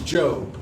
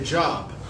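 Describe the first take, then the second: First: It sounds different from the everyday word job. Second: It sounds like the everyday word job. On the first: The speaker calls it right. "but it's Job" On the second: The speaker calls it wrong. "A lot of people get up there and say Job, J O B"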